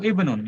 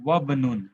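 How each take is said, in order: First: "इब्नुन" begun on a full i vowel; initial vowel pronounced. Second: "वबनुन" joined straight from wa to b, no i; hamza skipped. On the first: Teacher showing the word read at the start, "इब्नुन" with its i sounded. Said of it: "तो कैसे पढ़ेंगे इसको?". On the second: Teacher showing the word after waw, "वबनुन" linked without the i. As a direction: run wa into bnun as "वबनुन". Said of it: "तो आप कैसे पढ़ेंगे इसको?". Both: Shown as a demonstration.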